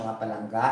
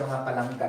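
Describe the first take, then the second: First: Palangga? lifted at the end as a question; asking tone. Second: Teacher states it to the class, falling and settled; telling tone. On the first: Teacher asks her students if it is balanced, rising question. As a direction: check with the class, rising on palangga?. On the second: Teacher tells her students the equation is balanced, settled tone. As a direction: say it as a fact, not a question. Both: Shown as a demonstration. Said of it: "Na-balance na ba ni siya".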